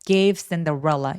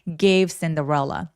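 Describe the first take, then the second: No difference in how they are said.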